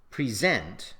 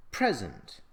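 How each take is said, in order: First: "present" stressed on SENT, as the verb; stress on second syllable. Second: "present" stressed on PRES, as the noun; stress on first syllable. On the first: Teacher shows "present" as a verb, stressed on the second syllable. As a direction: say "present" as pree-ZENT, weight on the end. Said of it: "present as a verb". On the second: Teacher shows "present" as a noun, stressed on the first syllable. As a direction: say "present" as PREZ-ent, weight up front. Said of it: "present as a noun". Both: Shown as a demonstration.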